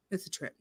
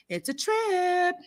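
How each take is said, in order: First: Very soft, low-key remark; understated aside. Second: High, slow, stretched-out repeat; drawn-out amazement. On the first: Host describing a show she watches, understated aside. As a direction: drop it almost under the breath. Quotes own reaction, first take quiet. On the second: Host describing a show she watches, drawn-out amazement. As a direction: stretch TRIP out long and high. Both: Retold or imitated.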